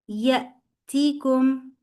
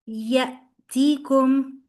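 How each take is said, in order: Both takes have the same delivery.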